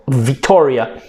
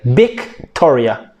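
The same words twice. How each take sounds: First: The word starts with a V sound. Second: The word starts with a B sound. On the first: "they cannot pronounce the V like Victoria" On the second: "they would say Victoria"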